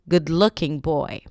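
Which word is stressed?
looking. The stress falls on looking. The speaker calls it wrong. "Not good-looking boy"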